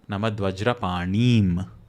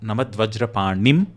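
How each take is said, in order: First: The E vowel is said long. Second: The E vowel is said short. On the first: The speaker calls it right. "pronouncing that E as a long vowel" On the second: The speaker calls it wrong. "not Namad Vajrapanim"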